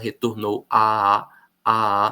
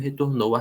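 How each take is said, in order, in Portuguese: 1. A vogal 'a' é falada duas vezes, separadamente. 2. A vogal 'a' é falada uma vez, fundida. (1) "A gente não fala retornou a, a, a" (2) "a gente fala como se fosse um a só"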